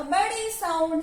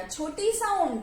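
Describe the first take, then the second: First: बड़ी sound higher, with the vowels lengthened; बड़ी sound said bigger and longer; big sound. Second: Said in the usual way. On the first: Shown as a demonstration. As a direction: lift and stretch बड़ी sound. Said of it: "बड़े ऊ की मात्रा". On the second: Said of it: "छोटे ऊ की मात्रा".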